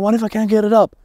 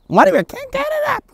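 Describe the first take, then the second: First: It is said in a heavy, deep, dark voice. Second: It is said in a silly, duck-like cartoon voice. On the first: The worry feels serious and weighty. "That voice in your head is usually quite heavy, quite deep, quite dark" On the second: The worry sounds too silly to take seriously. "Horrible Donald Duck impression"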